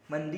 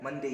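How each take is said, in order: First: मंडे said mun-di, ending in i; मंडे as mun-dee; alternative Monday. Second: मंडे said mun-day, a clean e at the end; मंडे, the last vowel a plain e; correct Monday. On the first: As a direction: say मंडे with a closing i. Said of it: "मंडे भी बोल सकते हैं". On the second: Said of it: "मंडे ही होता है". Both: Shown as a demonstration.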